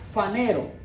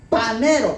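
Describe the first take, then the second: First: The word begins with an f sound. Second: The word begins with a p sound. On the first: The speaker calls it right. "Se pronuncia fanero" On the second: The speaker calls it wrong. "parece que dice panero, pero se escribe P H"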